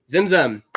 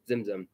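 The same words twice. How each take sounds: First: "Zimzum" said louder, ZIM-zum with a falling close; Zimzum introduced. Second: Said in the usual way. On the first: Shown as a demonstration. Pastor introducing the Hebrew term to the congregation, announcing "Zimzum". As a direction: announce the word "Zimzum" clearly for the room. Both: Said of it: "T Z I M T Z U M".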